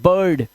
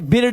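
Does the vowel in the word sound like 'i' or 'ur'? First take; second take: ur; i. First: The vowel sounds like the ur in fur. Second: The vowel sounds like the i in bit. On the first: The speaker calls it right. "इसे पढ़ेंगे बर्ड" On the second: The speaker calls it wrong. "इसे बिर्ड नहीं पढ़ेंगे"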